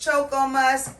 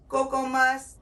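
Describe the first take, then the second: First: "Choco" pronounced CHOH-koh; "Choco Musk" said with ch, not k; CHOCO with a ch sound. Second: "Cocoa" pronounced KOH-koh; "Cocoa Musk" said with k, not ch; COCOA with a hard k. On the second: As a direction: open "Cocoa" with k as in coat. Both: Shown as a demonstration. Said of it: "I've heard it pronounced".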